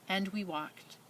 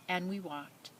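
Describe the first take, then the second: No difference in how they are said.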